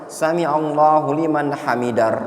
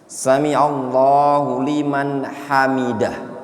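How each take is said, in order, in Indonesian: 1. Frasa ini diakhiri tanpa h lembut yang berdesah. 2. Frasa ini diakhiri dengan h lembut yang berdesah. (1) "Itu salah" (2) "Ingat ya, bacanya gini"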